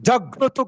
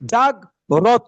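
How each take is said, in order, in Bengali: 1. র ধ্বনিটি যুক্তাক্ষরের সঙ্গে মিশে যায়। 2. র ধ্বনিটি যুক্তাক্ষর থেকে আলাদা হয়ে যায়। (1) "জাগ্র গ্র গ্র গ্র জাগ্রত" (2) "অনেকেই বলে জাগ্রত জাগ্রত, রকে আলাদা করছে, হচ্ছে না"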